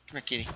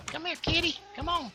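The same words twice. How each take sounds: First: Said in the usual way. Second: Very high-pitched kitty call; high pet-calling voice; coaxing a cat. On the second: Real, not acted. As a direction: squeak it up high to coax a kitty over.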